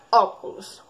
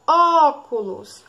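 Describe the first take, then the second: First: Said in the usual way. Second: "Óculos" with a long, loud Ó; slow "Óculos", first syllable held then dropping; stressed first syllable. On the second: Shown as a demonstration. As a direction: stretch out the Ó in "Óculos". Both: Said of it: "Qual é a sílaba mais forte".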